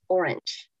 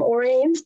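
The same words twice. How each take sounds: First: It is said like the color word. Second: It is not said like the color word. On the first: The speaker calls it right. "it's supposed to be pronounced Orange" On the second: The speaker calls it wrong. "I call him Orange, but I know it's not the right pronunciation"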